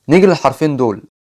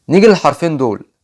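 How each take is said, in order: No difference in how they are said.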